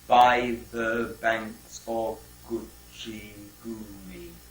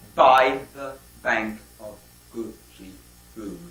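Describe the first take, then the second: First: Every syllable gets equal, monotone stress. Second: Stress falls on every second syllable. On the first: The speaker calls it right. "It produces a monotone, rather like the poem Hiawatha" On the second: The speaker calls it wrong. "Some people read Hiawatha stressed in twos"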